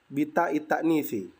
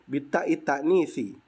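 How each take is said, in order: Both takes have the same delivery.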